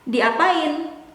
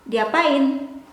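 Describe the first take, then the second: Both takes have the same delivery.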